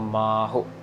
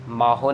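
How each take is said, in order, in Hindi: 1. पहला अक्षर लंबा है, दूसरा छोटा। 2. दोनों अक्षरों को बराबर लंबाई और बराबर ज़ोर मिलता है। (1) "मम्मे को लंबा खींच रहे हैं और हाहे अंकड़ को छोटा" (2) "माहो नहीं कहना ... इक्वली आवाज नहीं देनी दोनों को"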